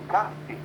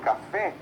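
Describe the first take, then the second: First: The stress is on the first syllable. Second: The stress is on the last syllable. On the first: The speaker calls it wrong. "e não café" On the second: The speaker calls it right. "Eu falo café"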